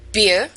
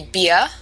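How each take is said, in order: First: Said in the usual way. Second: "beer" ending "bee-uh", no final R; New York r-dropping. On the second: Shown as a demonstration. Teacher demonstrating New York speech: "beer", R dropped. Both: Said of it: "beer would be beer".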